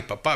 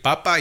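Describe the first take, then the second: First: "papá" with the beat on the final "pá"; stress on last syllable. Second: "papa" with the beat on its first "pa"; stress on first syllable. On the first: Giving an example of prosodic accent, "papá" stressed at the end. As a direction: lean on the ending of "papá". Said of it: "Son cosas diferentes". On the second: Giving an example of prosodic accent, "papa" stressed up front. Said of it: "el acento prosódico". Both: Shown as a demonstration.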